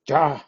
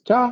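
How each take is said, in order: First: It is said in a sharp, annoyed tone. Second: It is said in a bright, cheerful tone. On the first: The speaker has had enough. "with the different intonation when you say ja, enough" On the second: The person is ready to go. "if you say it with particular cheerful uh, intonation"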